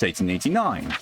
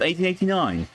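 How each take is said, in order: First: Said in the usual way. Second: Eighteen eighty-nine said high and formal. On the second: Acted.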